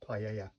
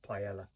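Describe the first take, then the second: First: The double L sounds like a Y. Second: The double L sounds like an L. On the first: The speaker calls it right. "I think that's pronounced U in Spanish, like paella" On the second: The speaker calls it wrong. "not paella"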